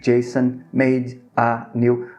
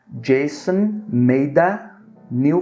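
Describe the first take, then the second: First: Each word is said separately, one by one. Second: The words run together without breaks between them. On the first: The speaker calls it wrong. "Não é assim que a gente fala" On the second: The speaker calls it right. "Vamos conectar"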